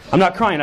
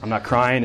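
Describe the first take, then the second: First: Higher, louder mock denial; mock protest. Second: Said in the usual way. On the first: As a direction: insist a touch too hard you're not crying. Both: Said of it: "the excuses come out".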